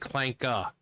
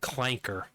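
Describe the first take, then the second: First: The word ends in a vowel without R. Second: The word ends with a clear R sound. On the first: "not a clanka" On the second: "Hard R"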